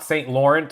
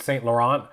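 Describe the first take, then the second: First: "Saint Laurent" as saint LOR-ent, final T sounded; anglicized mispronunciation. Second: "Saint Laurent" as san luh-RAHN, lower pitched; French-style pronunciation. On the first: YouTuber showing the wrong way, anglicized mispronunciation. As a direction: say "Saint Laurent" the English way, like Lawrence with a T. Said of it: "It's not Saint Laurent". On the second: YouTuber correcting the brand name, French-style pronunciation. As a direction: stress the second syllable of "Saint Laurent", open ending. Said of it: "It's Saint Laurent". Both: Shown as a demonstration.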